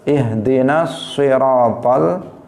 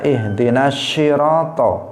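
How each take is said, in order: First: The word begins with an emphatic s sound. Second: The word begins with a sh sound. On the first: The speaker calls it right. "kalau shad" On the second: The speaker calls it wrong. "jangan dibaca ihdinas syirato"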